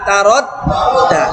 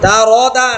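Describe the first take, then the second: First: The middle consonant is held and doubled. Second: The middle consonant is short and single. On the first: The speaker calls it right. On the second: The speaker calls it wrong.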